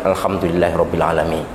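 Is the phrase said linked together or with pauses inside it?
linked. The words run together without any pause. The speaker calls it wrong. "Kalau dibaca wasol begitu, itu ada dua setan"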